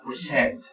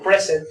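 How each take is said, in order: First: The stress is on the second syllable. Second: The stress is on the first syllable. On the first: It is a verb. "como verbo, se lo representa como la mayor fuerza de voz en la siguiente sílaba" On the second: It is a noun meaning a gift. "como nombre, se lo representa como con la mayor fuerza de voz en la primera sílaba"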